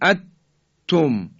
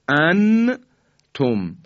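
First: The n is merged completely into a doubled t. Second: The n is pronounced clearly before the t. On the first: "اینم که دیگه حالت ادغامه و صحیح نیست" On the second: "ما نمیگیم ان توم، این اظهاره"

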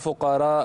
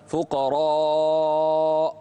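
First: The vowel is said with the mouth wide open. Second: The vowel is said with the mouth less open. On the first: The speaker calls it wrong. "لا تفتح الفم، لا تقول فقراء" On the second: The speaker calls it right. "لا، فقراء"

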